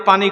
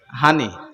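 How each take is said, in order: First: The word begins with a p sound. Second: Noakhali style: the word begins with an h sound.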